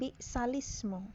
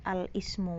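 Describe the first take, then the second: First: The opening vowel is dropped, joined to previous word. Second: The word starts with a pronounced vowel. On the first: The reading continues from the word before. "saat membaca Hujurat kan bi'salismu" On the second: The reading starts at this word. "kalau memulai dari"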